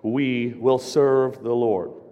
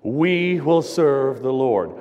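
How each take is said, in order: First: It is said plainly, with mild conviction. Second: It is said forcefully, with strong conviction.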